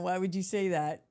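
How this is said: It is asked in a confrontational, aggressive tone. The speaker is about to start a fight. "now I'm going to go in on you"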